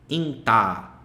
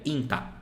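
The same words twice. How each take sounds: First: The final vowel is held long. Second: The final vowel is short. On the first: "Ele puxa o som da letra anterior" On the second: "Se não tivesse ele, ficaria inta"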